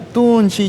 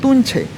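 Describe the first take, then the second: First: The word ends with an 'ee' vowel. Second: The word ends with an 'eh' vowel. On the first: This is how it is said locally, here. "nosotros decimos acá tunchi" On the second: This is how it is said in the upper jungle. "en Tarapoto o, o- o en la selva alta, en otros lados, dicen Tunche"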